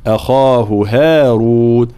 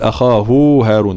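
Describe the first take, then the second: First: Slow chant, "أخاه" ending in short hu; long khaa, short hu, long "هارون"; correct short hu. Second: "أخاه" with final hu stretched long; wrongly prolonged ha. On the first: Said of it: "هكذا، لأنه قبلها كذلك حرف مد". (ترتيل أخاه بلا مد للهاء) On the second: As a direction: stretch hu before "هارون", as a mistake. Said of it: "لا نقول". (أخاه بمد الهاء خطأً) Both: Shown as a demonstration.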